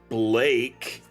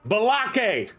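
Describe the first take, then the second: First: The B runs straight into the L. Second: An extra vowel sound comes between B and L. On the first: The speaker calls it right. "my name is actually Blake" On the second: The speaker calls it wrong. "I don't like being called Balake"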